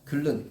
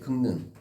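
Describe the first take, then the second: First: The middle consonants are pronounced as a double l. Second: The middle consonants are pronounced as ng then n. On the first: The speaker calls it wrong. "글른 비표준 발음이지 유음화가 나타난 거잖아요" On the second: The speaker calls it right. "기역의 표준 발음 밑줄 쳐볼게요"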